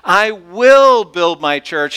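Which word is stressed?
will. The stress is on "will".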